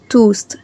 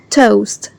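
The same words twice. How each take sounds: First: The vowel is an oo sound. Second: The vowel is an O sound. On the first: The speaker calls it wrong. "Not oo" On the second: The speaker calls it right. "O A make the sound O"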